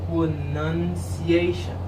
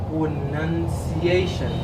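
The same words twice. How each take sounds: No difference in how they are said.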